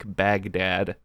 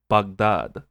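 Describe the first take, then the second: First: It is said with an American accent. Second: It is said with an Iraqi accent. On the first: An outsider would say it this way. "like an American like Baghdad" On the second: Someone from there would say it this way. "she pronounces it Baghdad"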